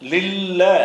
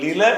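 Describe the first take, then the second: First: The middle consonant is doubled. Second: The middle consonant is short. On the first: The speaker calls it right. "லில்லன்னு அந்த இல்லைன்னாவை கூடுதலாக சேர்த்து சொல்லணும்" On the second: The speaker calls it wrong. "லில என்று சொல்லாமல்"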